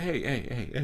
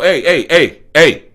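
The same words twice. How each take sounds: First: It is called out softly and gently. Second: It is called out loudly and forcefully.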